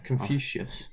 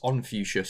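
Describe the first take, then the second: First: The word begins with a sounded K. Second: The word begins without the K sound.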